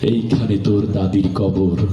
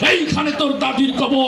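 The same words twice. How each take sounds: First: It is recited in a gentle, poetic manner. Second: It is shouted like a fiery political speech. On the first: "তার আবৃত্তিটা সুন্দর ছিল" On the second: "মঞ্চে সবসময় গরম বক্তব্য দিয়ে অভ্যাস"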